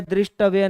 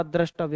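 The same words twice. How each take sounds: First: दृष्टव्य said "drishtavya" with the ऋ vowel; दृष्टव्य with an "i" after द्र, "drish-tavya"; दृष्टव्य as "drishtavya", the form to avoid; wrong form shown. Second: द्रष्टव्य said "drashtavya" with a short a after द्र; द्रष्टव्य as "drash-tavya", no "i" sound; द्रष्टव्य spoken correctly as "drashtavya"; correct form shown. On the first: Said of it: "दृष्टव्य नाम का कोई शब्द नहीं होता". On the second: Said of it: "द्रष्टव्य होता है". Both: Shown as a demonstration.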